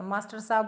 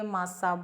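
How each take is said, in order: First: मास्टर साहब with the "tar" fully said; careful "mas-tar sab" for मास्टर साहब; correct मास्टर साहब. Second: मास्टर साहब squashed into "massab"; contracted मास्टर साहब. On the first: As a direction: keep both words whole in मास्टर साहब. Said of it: "बोलना चाहिए". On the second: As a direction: drop the "tar" from मास्टर साहब. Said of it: "बोल देते हैं". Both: Shown as a demonstration.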